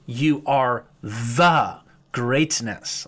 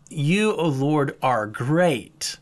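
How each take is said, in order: First: Slow, with the word "the" leaned on hard in "You are the greatness"; stress on THE. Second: Said in the usual way. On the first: Shown as a demonstration. Preacher contrasting wordings for his congregation, slow stress on "the". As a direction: drag out "the" in "You are the greatness" to make it weigh. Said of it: "He says". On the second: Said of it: "He doesn't just say".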